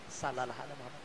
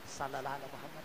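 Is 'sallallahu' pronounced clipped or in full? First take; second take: clipped; clipped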